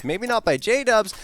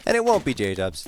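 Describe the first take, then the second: First: Excited. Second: Said in the usual way. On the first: Real, not acted. Caster call.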